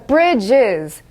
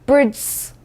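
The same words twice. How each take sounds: First: The ending is an extra syllable sounding iz. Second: The ending is a bare z with no vowel. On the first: The speaker calls it right. "이가 살짝 꼽사리를 끼기 시작합니다" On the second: The speaker calls it wrong. "bridges 이렇게 안 하잖아요"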